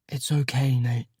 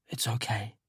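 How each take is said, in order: First: Said in the usual way. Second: Softer, hushed comfort; gentle whispered reassurance; tender reassurance. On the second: A narrator's reading. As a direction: soothe him gently in the dark. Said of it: "I reach across Elliot, find his hand, and squeeze".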